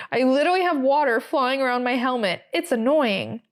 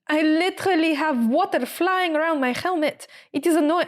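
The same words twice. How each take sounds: First: Said in the usual way. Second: Higher-pitched, badly faked French accent; attempted French accent. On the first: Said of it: "say it in an American accent". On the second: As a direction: imitate a French driver complaining, accent wobbly. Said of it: "I can't do a French accent".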